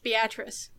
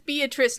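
First: The name is said the local Nebraska way. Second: The name is said the usual outsider way. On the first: The speaker calls it right. "but it's Beatrice" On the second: The speaker calls it wrong. "Robert Stack mispronounces the town name"

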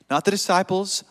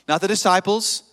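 The two takes are said the same way.

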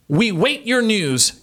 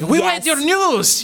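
First: It is said in her normal accent. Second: It is said in a put-on Asian accent.

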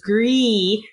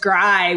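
First: The vowel sounds like 'ee'. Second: The vowel sounds like 'eye'. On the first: "So it's IE" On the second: "Grie would be EI"

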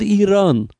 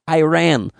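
First: It is said the native Iranian way. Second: It is said the common American way. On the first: This is what the country calls itself. The speaker calls it right. "We are called Iran" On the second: This is the pronunciation the country's people dislike. The speaker calls it wrong. "we are very upset when everybody says Iran"

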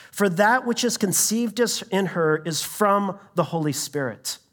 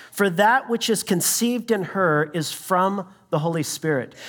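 The two takes are said the same way.

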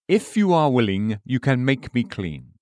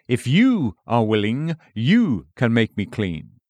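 First: No word is specially stressed. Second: The pronouns you and me are stressed.

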